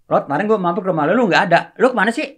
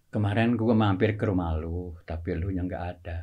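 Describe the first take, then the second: First: Fast, higher and louder, the joke killed; wrong rushed intonation. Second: Low and soft, unhurried setup; right comic timing. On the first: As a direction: rattle it off too quickly and brightly. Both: Shown as a demonstration. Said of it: "ketika intonasi berubah aja jadi nggak lucu".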